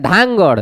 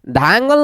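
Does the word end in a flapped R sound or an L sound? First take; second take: flapped R; L sound. First: The word ends with a flapped R sound. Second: The word ends with an L sound. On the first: The speaker calls it right. "ये धांगड़ का है" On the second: The speaker calls it wrong. "धांगल नहीं बोल रहे हैं"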